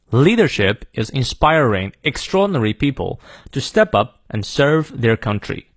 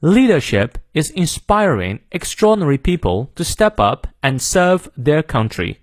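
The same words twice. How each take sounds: First: American accent. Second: British accent. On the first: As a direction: read it in clear American English, sounding the R's. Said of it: "好，美式发音". (美式发音示范朗读) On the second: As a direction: read it in British English, dropping R's after vowels. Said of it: "好，英式发音". (英式发音示范朗读) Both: Shown as a demonstration.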